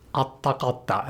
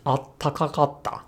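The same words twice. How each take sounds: First: Atakatta, shortened by losing both a ta and a ka; dropped syllables. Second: Attakakatta, contracted with a held t after the first a; one ta dropped. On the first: Teacher showing what natives avoid, atakatta with two syllables dropped. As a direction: say atakatta clipped down, two syllables missing from atatakakatta. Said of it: "dropping both a ta and a ka". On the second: Teacher showing what natives say, attakakatta with one ta dropped. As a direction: say attakakatta losing only one ta, keeping the ka. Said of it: "dropping one ta". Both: Shown as a demonstration.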